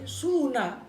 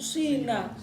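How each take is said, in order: First: The first vowel is a pure u. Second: The first vowel is a pure i. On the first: "Ada domah murni berarti suna" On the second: "Ada ya murni sina"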